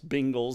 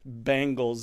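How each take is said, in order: First: It is said like Bingles, Southern style. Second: It is said with standard Beng- vowel.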